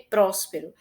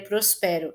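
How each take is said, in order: First: The stress is on the first syllable. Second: The stress is on the second syllable. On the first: The speaker calls it right. "que mais forte é o pró" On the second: The speaker calls it wrong. "se fosse mais forte o som do pé"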